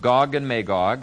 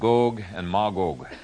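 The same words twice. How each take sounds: First: The name has its usual English pronunciation. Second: The name has a Hebrew pronunciation.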